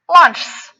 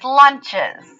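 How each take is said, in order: First: It ends with a plain s sound, one syllable. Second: It ends with an added is syllable. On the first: The speaker calls it wrong. "if I just put an S on the end of lunch, this word says lunchs. Does that sound right to your ears? No" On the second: The speaker calls it right. "We add an es to make it lunches"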